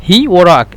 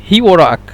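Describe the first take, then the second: The two takes are said the same way.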